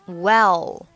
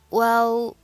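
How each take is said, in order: First: The word is slow and fully pronounced. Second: The word is short, quick and blurred. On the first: The speaker calls it wrong. "不需要读成well" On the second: The speaker calls it right. "很快速的well"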